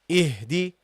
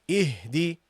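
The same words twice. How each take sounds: The two takes are said the same way.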